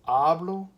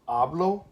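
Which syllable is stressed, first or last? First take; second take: first; first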